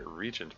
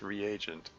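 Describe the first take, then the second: First: It is said in two syllables, like regent. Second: It is said in three syllables, re-a-gent. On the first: The speaker calls it wrong. "I seem to recall pronouncing it regent back then" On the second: The speaker calls it right. "the dictionary says it's reagent"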